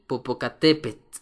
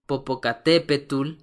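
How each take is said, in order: First: "popocatépetl" as popo-ca-TE-pet, no -ul; correct final TL. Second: "popocatépetl" wrongly ending in -tul; common mistake. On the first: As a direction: end "popocatépetl" on a voiceless t or ts. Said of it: "que en realidad se pronuncia". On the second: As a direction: mispronounce "popocatépetl" as popo-ca-TE-pe-tul. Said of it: "uno de los errores más comunes". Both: Shown as a demonstration.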